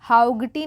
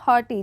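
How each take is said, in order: First: The gh is pronounced as a g sound. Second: The gh is silent and not pronounced. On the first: The speaker calls it wrong. "हाउगटी नहीं" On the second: The speaker calls it right. "जी एच जो है ये silent हो जाएगा"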